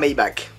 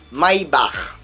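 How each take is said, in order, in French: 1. La terminaison est adoucie, sans le son guttural. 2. La terminaison a un son allemand dur et guttural. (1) "on va se limiter à Maybach" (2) "ça se dit à l'allemande"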